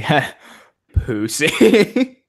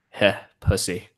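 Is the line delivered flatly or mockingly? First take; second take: mocking; flat. First: It is said in a mocking, taunting tone. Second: It is said flatly, without a mocking tone. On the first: The speaker calls it right. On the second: The speaker calls it wrong.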